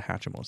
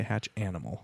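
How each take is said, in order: First: Hatchimal said the usual way, hatch-ih-mal; correct name. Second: Hatch Animal split into two words, hatch then animal; wrong name on purpose. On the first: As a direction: Hatchimal as one run-together word. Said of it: "make sure instead of Hatchimal". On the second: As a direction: Hatch Animal with a clear break and full animal. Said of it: "say Hatch Animal". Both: Shown as a demonstration.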